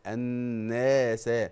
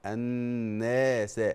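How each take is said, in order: Both takes have the same delivery.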